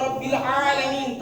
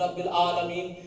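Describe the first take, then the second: First: رب العالمین with the throaty ع fully sounded; with a clear ain. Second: رب العالمین said simply, the ع dropped to a plain a; plain a, no ain. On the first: Teacher recites the correct رب العالمین for the class, ع clearly sounded. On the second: Teacher shows the class the careless رب العالمین, ع dropped. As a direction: flatten العالمین into an ordinary a with no throat sound. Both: Shown as a demonstration. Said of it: "سادہ پڑھتے ہیں رب العالمین،".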